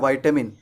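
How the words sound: It is said in an American accent. "American English में हम कहते हैं वाइटामिन"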